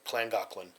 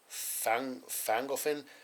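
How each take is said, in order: First: The name begins with a KL sound. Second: The name begins with an F sound. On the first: The speaker calls it right. "the double L makes a K and L sound" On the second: The speaker calls it wrong. "it had an F sound. So then I thought it was"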